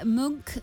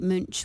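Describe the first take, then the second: First: The name is said like the painter's surname. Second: The name is said the German way. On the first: This is how fans of the painter say it. "Munk for people who are fans of Edvard" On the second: This is how German speakers say it. "which is the more correct pronunciation"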